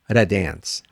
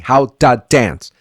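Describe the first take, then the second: First: The word 'to' sounds light and quick. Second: The word 'to' sounds heavy, like 'da'. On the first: The speaker calls it right. "it has to be light" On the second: The speaker calls it wrong. "don't say how da, because this is very heavy"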